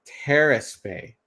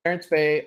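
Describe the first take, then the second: First: "Terrace" said slowly as terr-iss, no n; slow, careful "Terrace", no n sound. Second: "Terrence" said with a clear n before the s; "Terrence", ten-ss, nasal n kept in. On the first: Shown as a demonstration. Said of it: "I'm not saying it right". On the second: Real, not acted. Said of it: "I'm saying Terrence".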